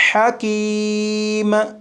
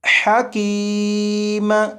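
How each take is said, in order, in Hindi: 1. अंतिम म (m) की एक साफ़ गूंज के साथ अदायगी होती है। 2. अंतिम म (m) की एक साफ़ गूंज के साथ अदायगी होती है।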